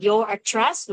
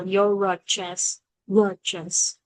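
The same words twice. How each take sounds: First: Said in the usual way. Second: "your address" run together through the R; "address" starting on the R of "your"; usual linked reading. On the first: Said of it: "đúng không? Thì nó sẽ hay đọc là". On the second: Shown as a demonstration. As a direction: link "your" onto "address" as if one word. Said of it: "Thì nó sẽ hay đọc là".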